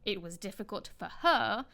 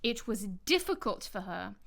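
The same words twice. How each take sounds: First: "her" emphasized with a fall at the end; stress on HER. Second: Emphasis lands on "difficult", "for her" stays light; stress on DIFFICULT. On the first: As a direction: put the weight on the last word, "her". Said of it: "stressing or emphasizing the pronoun". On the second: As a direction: make "difficult" the key word. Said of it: "if you stress the adjective". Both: Shown as a demonstration.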